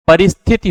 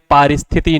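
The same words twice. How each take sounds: First: परिस्थिति said with short first vowel, "pa-ris-thiti"; correct short "pa". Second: पारिस्थिति said with long first vowel, "paa-ris-thiti"; wrong long "paa". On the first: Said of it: "परिस्थिति होता है". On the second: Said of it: "पारिस्थिति नहीं". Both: Shown as a demonstration.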